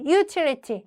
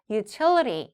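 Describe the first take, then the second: First: Utility with the stress misplaced, as learners say it; mock the mistaken stress of utility; wrong stress. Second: Utility stressed on the second syllable. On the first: Teacher showing learners what to avoid, wrong stress. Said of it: "이렇게 되지 않게끔". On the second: Teacher showing where utility takes its stress, second-syllable stress. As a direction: lean on the TIL in utility. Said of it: "이음절에 강세를 두는 단어이죠". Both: Shown as a demonstration.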